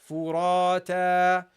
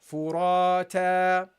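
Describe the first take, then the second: Both takes have the same delivery.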